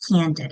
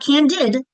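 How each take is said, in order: First: Said in the usual way. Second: Candid stressed on the last syllable, canDID; wrong stress on second syllable. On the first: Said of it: "The accent's on the first syllable". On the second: Shown as a demonstration. Teacher showing how not to say it, candid stressed on its end. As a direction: put the weight on the "did" of candid. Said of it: "It's not candid".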